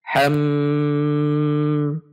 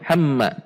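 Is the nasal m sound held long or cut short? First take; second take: long; short. First: The m sound is held long with nasal hum. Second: The m sound is short, with no hum. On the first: The speaker calls it right. "harus dibaca panjang ... dibaca dengung, dua ketuk minimal" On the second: The speaker calls it wrong. "jangan sampai dibaca hamma. Ini kesalahan yang sering terjadi, yaitu dibaca pendek"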